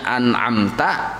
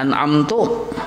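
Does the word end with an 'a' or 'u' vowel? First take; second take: a; u. First: The word ends with an 'a' vowel. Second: The word ends with an 'u' vowel. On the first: The speaker calls it right. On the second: The speaker calls it wrong.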